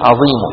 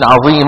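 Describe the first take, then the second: First: The word ends with only a faint u vowel. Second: The word ends with a full nunation n sound.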